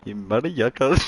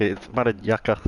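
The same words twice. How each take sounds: First: Mock Indian accent, a bit louder, yucca rising; tossing out mother yucca in a joke Indian accent. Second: Light mock Indian accent, mother yucca said as mara jaka. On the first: Repeating his joke insult, mock Indian accent. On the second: Streamer jokes how Indians swear, mock Indian accent. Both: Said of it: "How do Indians say motherfucker".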